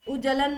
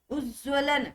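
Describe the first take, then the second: First: उज्जलन with the व dropped, उज-जलन; teacher showing the wrong उज्जलन; wrong pronunciation. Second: Said in the usual way. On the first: Shown as a demonstration. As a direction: say उज्जलन without the व sound. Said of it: "नहीं".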